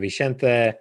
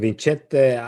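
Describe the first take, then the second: First: The name is pronounced a non-Italian way. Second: The name is pronounced the Italian way. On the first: The speaker calls it right. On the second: The speaker calls it wrong.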